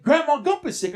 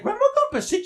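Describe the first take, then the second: First: Said in the usual way. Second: Surprised echo. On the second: Retold or imitated. Boy echoing mama's news, a high surprised question. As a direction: pitch jumps high on the question.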